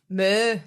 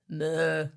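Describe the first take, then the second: First: The moo is in a higher voice. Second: The moo is in a lower voice.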